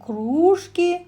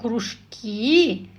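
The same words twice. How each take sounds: First: The stress falls on the first syllable. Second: The stress falls on the last syllable. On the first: It means mugs, a kind of dishware. "это посуда, кружка" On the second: It means after-school clubs or hobby groups. "это то, что проводится в школе, хобби"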